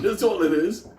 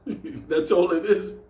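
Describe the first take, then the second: First: Said in the usual way. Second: Slow, drawn out. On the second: Shown as a demonstration. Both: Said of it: "repeated punchline".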